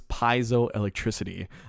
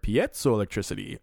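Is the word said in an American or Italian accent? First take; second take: American; Italian. First: The word is said with an American pronunciation. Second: The word is said with an Italian pronunciation. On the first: "if we were boorish Americans, ... they would pronounce this" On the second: "when you say it with an Italian accent like that"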